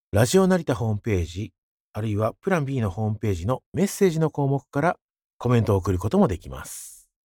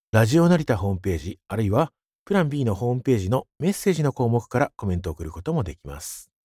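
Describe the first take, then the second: Both takes have the same delivery.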